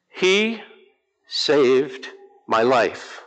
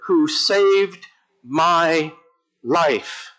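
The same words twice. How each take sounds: First: He, then saved my life drawn out very slowly; slow testimony. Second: "who saved my" spoken very slowly with "saved" leaned on, then "life" dropped; a slower, weightier echo of the earlier line; slow testimony. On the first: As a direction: let "saved my life" land word by word, very slow. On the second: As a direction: stretch "saved" slowly and let "life" fall. Repeats the climax, very slow. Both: Real, not acted.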